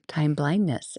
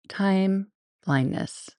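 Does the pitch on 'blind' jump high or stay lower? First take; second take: jumps high; stays lower. First: The pitch on 'blind' jumps up high. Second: The pitch on 'blind' stays lower.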